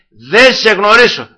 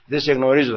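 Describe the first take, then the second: First: «Δεν σε γνωρίσω» slow, loud and high, each word weighed; solemn verdict. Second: Said in the usual way. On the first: Shown as a demonstration. The Lord refusing the soul at the door, «Δεν σε γνωρίσω» slow, loud. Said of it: "δύο λόγια θα". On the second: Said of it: "θα πει και δύο λόγια".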